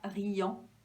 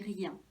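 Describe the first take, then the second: First: The word ends in an 'an' nasal vowel. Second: The word ends in an 'in' nasal vowel. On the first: The speaker calls it wrong. "on ne dit pas riant" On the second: The speaker calls it right. "là ça se dit rien"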